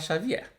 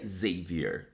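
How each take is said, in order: First: The name is said with Portuguese pronunciation. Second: The name is said with English pronunciation. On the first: "eu vou falar Xavier" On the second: "sabendo que é um livro em inglês, a pronúncia correta seria Xavier"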